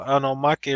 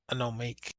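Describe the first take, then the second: First: Omake is said with a Japanese-like pronunciation. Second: Omake is said with an English-like pronunciation.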